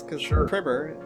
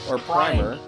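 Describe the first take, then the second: First: The first vowel is short, as in 'prim'. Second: The first vowel is long, as in 'prime'. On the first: It refines you. "it prims you, right? It refines you" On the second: It starts you off. "It starts you off at the prime"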